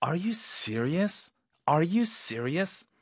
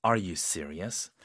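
First: Disbelieving. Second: Low, slow doubtful question; disbelieving. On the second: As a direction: sound like you can't believe it. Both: Shown as a demonstration. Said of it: "믿기 어려운 상황에서는 이런 톤으로".

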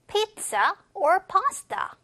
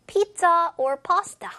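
First: Careful model of "pizza or pasta" on its own; spaced-out "pizza", "or", "pasta"; separate choice phrase. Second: Louder, higher "Pizza or pasta" carried on from the question; linked model phrase, stronger on "Pizza"; joined to the question. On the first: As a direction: slowly set out "pizza", then "or pasta". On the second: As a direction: run "Pizza or pasta" together as one choice. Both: Shown as a demonstration. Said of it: "붙여볼게요".

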